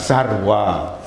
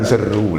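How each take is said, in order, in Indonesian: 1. Kata itu diucapkan 'sarwa'. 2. Kata itu diucapkan 'seru'. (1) "sebutan yang sebenarnya sarwa" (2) "Bukan seru lah"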